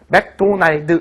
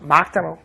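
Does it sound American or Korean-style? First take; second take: Korean-style; American. First: Clear 'o' vowel and a final 'd', Korean style. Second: 'Ah' vowels and a reduced ending, American style. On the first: The speaker calls it wrong. "이건 없죠" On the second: The speaker calls it right. "막다널 이렇게 얘기를 하시죠"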